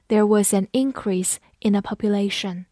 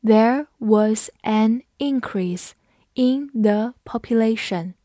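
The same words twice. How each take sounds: First: Said in the usual way. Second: There was an increase in the population, slow and word by word; teacher's slow, separated model reading; slow read-along. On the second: Shown as a demonstration. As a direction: read it at half speed for learners. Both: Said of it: "我们慢读一遍".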